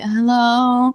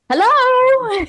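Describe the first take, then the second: First: It sounds sleepy and groggy. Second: It sounds bright and cheerful.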